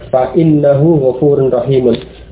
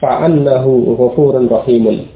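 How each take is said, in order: First: The word after fa begins with an i vowel. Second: The word after fa begins with an a vowel. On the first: "Kalau diucapkan dengan inna" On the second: "dengan menfathah"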